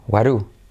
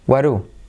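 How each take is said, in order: First: The t and d merge into a soft tapped r. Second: The t and d merge into a soft tapped r.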